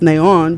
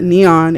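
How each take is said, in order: First: The stress is on the last syllable. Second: The stress is on the first syllable. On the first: The speaker calls it right. "it's neon because the accent mark is above the O" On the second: The speaker calls it wrong. "you don't pronounce it neon"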